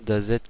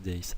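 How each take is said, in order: First: The name ends with a D sound. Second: The name ends with a Z sound. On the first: The speaker calls it right. "c'est bien Dazed que ça se prononce" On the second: The speaker calls it wrong. "et non pas Daze"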